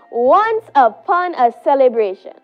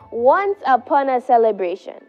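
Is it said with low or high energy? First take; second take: high; low. First: It is said with great energy. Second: It is said with modest energy.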